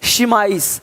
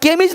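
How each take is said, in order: First: The word begins with an sh sound. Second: The word begins with a k sound. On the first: The speaker calls it right. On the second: The speaker calls it wrong. "यहाँ पे केमिज नहीं है"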